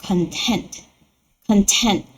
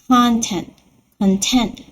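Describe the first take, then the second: Both takes have the same delivery.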